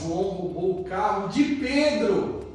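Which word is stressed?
Pedro. The emphasis falls on the word Pedro. The victim deserves pity. "Coitado do Pedro"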